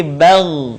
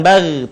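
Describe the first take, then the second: First: Bal with a heavy, thickened gh ending; thick final Gha. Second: Bal with a thin, unthickened gh ending; thin final Gha. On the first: Teacher shows the corrected form, thick bal. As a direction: thicken and hold the end of bal. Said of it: "terdengar menebal suaranya". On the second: Teacher shows the mistake to avoid, thin bal. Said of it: "Bukan bal". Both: Shown as a demonstration.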